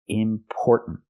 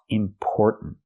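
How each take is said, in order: First: The second syllable has the vowel of store. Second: The same.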